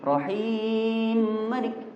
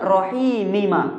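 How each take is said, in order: First: The two m sounds merge into one. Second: The two m sounds are pronounced separately. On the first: The speaker calls it right. "Maka itu dibaca idgham" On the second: The speaker calls it wrong. "Jadi bukan rahimima"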